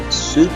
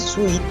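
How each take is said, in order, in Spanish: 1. La vocal suena como 'oo', sin sonido de i. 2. La vocal suena como 'ee', como en sweet. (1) "traje sería suit" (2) "puede que a veces cometamos el error de decir"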